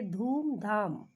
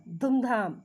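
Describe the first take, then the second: First: धूमधाम with a long u, dhoomdhaam; correct long u. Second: धूमधाम said with a short u, dhumdham; wrong short u. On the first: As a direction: stretch the ऊ in धूमधाम. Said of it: "आसानी से हम बोलेंगे". (धूमधाम को दीर्घ ऊ के साथ सही बोलें) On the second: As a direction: clip the first vowel of धूमधाम short. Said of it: "अटपटा सा लगता है ना सुनने में". (धूमधाम को छोटे उ से ग़लत बोलें) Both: Shown as a demonstration.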